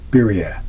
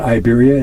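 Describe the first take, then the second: First: The first vowel sounds like 'ee'. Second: The first vowel sounds like 'eye'. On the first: The speaker calls it right. "it's E" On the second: The speaker calls it wrong. "Iberia is not Iberia"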